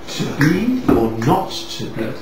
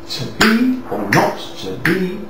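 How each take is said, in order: First: The stresses follow natural conversational speech rhythm. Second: The stresses fall evenly on the metrical beats. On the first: "But you don't say that" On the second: "So the poetry is"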